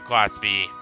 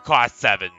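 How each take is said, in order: First: The numeral is read out as letters. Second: The numeral is read out as a number. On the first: The speaker calls it wrong. "I derp and pronounce it Class V" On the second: The speaker calls it right. "I'm pronouncing it Class seven from now on"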